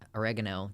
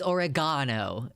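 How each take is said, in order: First: It is said with an American pronunciation. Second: It is said with a British pronunciation.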